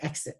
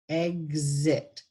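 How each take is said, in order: First: The x is voiceless, sounding like ks. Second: The x is voiced, sounding like gz. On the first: The speaker calls it wrong. "we say exit in the region, which is incorrectly pronounced" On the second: The speaker calls it right. "the correct pronunciation for exit is egg, exit, because gz"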